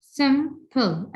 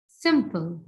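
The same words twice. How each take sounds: First: "Simple" split as "sim", pause, "ple"; higher, two separate beats on "Simple"; divided into syllables. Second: Said in the usual way. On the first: Shown as a demonstration. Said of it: "I can divide it into two". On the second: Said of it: "I can divide it".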